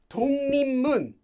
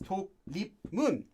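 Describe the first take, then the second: First: Sounds change into ng and n between syllables. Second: Each syllable is read letter by letter, unchanged. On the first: The speaker calls it right. "this is pronounced as Tong Nim Mun" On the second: The speaker calls it wrong. "this is not pronounced as Tok Lip Mun"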